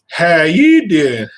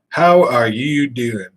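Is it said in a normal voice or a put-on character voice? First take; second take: character voice; normal. First: It is said in a put-on character voice. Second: It is said in the speaker's normal voice.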